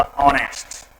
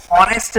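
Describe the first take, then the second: First: ऑनेस्ट with silent h, starting on the vowel; correct pronunciation demo. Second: हॉनेस्ट with the h sounded at the start; wrong pronunciation demo. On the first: Teacher giving students the pronunciation, ऑनेस्ट with no h. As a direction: open straight on "o" in ऑनेस्ट. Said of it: "इसका जो pronunciation होगा वो होगा". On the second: Teacher showing students how not to read it, हॉनेस्ट with sounded h. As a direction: say हॉनेस्ट with an audible breathed h. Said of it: "हॉनेस्ट नहीं पढ़ते हैं". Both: Shown as a demonstration.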